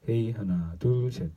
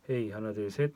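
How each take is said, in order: First: The voice sounds fuller, with stronger bass. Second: The voice sounds balanced, with neutral tone. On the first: "이건 약간 저음이 잘 들어옵니다" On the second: "베타 오팔 소리는 이렇게 나오고요"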